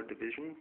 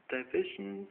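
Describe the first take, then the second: First: "division" with a short first vowel, dih-VIZH-un; "division" starting with a short "dih", not "die"; corrected pronunciation. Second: "division" with a long "eye" in the first syllable, die-VIZH-un; "division" guessed at with "die" at the start; unsure pronunciation. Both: Real, not acted. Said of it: "sorry about my pronunciation".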